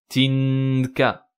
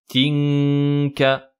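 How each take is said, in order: First: The n is clear, tongue touching the palate. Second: The n is hidden, tongue not touching the palate. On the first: The speaker calls it wrong. "C'est pas nasiyatinka" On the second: The speaker calls it right. "ma langue ne touche absolument pas le palais"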